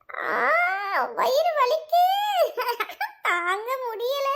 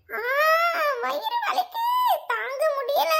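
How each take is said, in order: First: Giggling through a put-on wail; fake stomach pain. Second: High-pitched mock sobbing wail; fake crying. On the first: Friend faking a stomach ache to fool Poomari, laughing through the fake pain. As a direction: drag out mock agony, breaking into laughter. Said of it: "உன்னோட நடிப்பை start பண்ணு". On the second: Friend told to act as if crying from stomach pain, putting on a high tearful wail. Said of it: "அழுத மாதிரி நடிடி".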